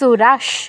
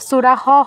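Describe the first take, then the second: First: It ends with a half sh sound. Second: It ends with a half h sound. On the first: The speaker calls it right. "কি হবে সুরাস" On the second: The speaker calls it wrong. "বা সুরাহ হবে না"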